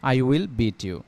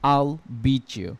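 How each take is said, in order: First: I will is said as two full words. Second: I will is shortened into one quick syllable. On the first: "স্বাভাবিকভাবে বললে এটাকে এরকম হবে" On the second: "contraction করে বলি"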